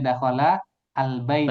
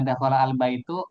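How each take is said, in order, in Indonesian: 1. Kata terakhir berakhir dengan vokal 'a'. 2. Kata terakhir berakhir dengan vokal 'u'. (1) "Kita bacanya dakhala al-baita" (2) "nanti orangnya heran. Rumahnya masuk ke mana?"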